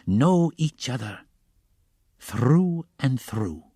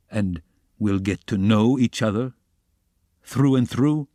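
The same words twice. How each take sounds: First: "know each other through and through" very slow, falling at the end; drawn-out assent. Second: "through and through" lifted into a rising question. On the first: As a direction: stretch every word of "through and through" into a knowing echo. Porfiri echoes Raskolnikov in assent. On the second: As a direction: put "through and through" to the listener as a question. Raskolnikov's line, echoed by Porfiri. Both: A narrator's reading.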